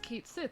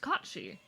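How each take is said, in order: First: The name sounds like 'Kate Sith'. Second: The name sounds like 'Kachi'. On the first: The speaker calls it wrong. "It's not pronounced Kate Sith" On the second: The speaker calls it right. "it is pronounced Kachi. That is the proper pronunciation"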